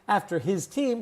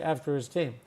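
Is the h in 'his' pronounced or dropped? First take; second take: pronounced; dropped. First: The h of 'his' is clearly pronounced. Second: The h of 'his' is dropped, sounding like 'is'. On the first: "instead of saying" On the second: "we say"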